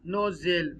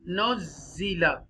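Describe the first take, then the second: First: The word ends on a consonant, vowel dropped. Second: The word ends with a short final vowel. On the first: The reader stops at this word. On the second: The reading continues without stopping.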